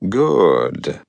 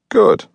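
First: The word is said more slowly. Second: The word is said at normal speed.

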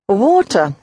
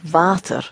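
First: It begins with an English W sound. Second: It begins with a V sound and long ah. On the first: "Water in English" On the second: "the W is pronounced like a V and is a real long open ah sound"

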